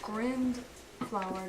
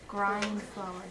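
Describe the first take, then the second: First: The first word has a short i vowel. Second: The first word has a long i vowel. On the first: The speaker calls it wrong. "So grind flower doesn't work" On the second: The speaker calls it right. "try it with a long vowel"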